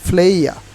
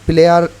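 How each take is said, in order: First: The p is breathy and the vowel glides upward. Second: The p is plain and the vowel stays flat. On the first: The speaker calls it right. "এটা অবশ্যই আপনাকে উচ্চারণ করতে হবে ফ্লেয়া" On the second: The speaker calls it wrong. "এখন আর প্লেয়ার উচ্চারণ হবে না"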